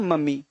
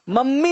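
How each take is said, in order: First: The m sound is single and short. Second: The m sound is doubled and held long. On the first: The speaker calls it right. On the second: The speaker calls it wrong.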